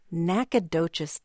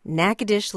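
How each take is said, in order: First: Nacogdoches slowly as NACK-uh-DOE-chess; Texas town pronunciation. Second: Natchitoches as NACK-uh-dish; local pronunciation. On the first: Host contrasting the Texas town, careful pronunciation. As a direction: say Nacogdoches in four syllables, ending DOE-chess. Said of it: "I think this is m". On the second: Host contrasting two similar town names, local pronunciation. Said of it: "where things do get confusing". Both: Shown as a demonstration.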